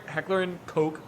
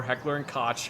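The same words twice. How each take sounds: First: Koch with a long o, like "coke"; alternative pronunciation. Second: Koch with a short vowel, like "kotch"; alternative pronunciation. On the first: Host offers one way to pronounce Koch, like "coke". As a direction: say Koch to rhyme with "poke". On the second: Host offers another way to pronounce Koch, like "kotch". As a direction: say Koch to rhyme with "watch". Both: Shown as a demonstration. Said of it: "however the hell you wanna pronounce it".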